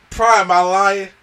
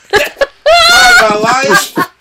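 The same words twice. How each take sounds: First: Said in the usual way. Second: Screamed much higher and louder through a laugh; laughing shout. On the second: Real, not acted. Cohost cries out to Prime, laughing, in a high shriek. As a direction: cry out his name in delighted disbelief. Cry-laughing over a movie moment.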